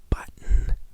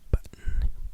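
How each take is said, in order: First: The middle t sounds are softened in American style. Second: The middle t sounds are softened in American style.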